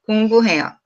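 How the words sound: The pitch stays flat across the word. It sounds like a native speaker. The speaker calls it right. "we don't have a lots of, you know, up and down intonations, just like this"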